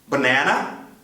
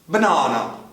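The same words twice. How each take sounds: First: It is said with an American accent. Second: It is said with a British accent.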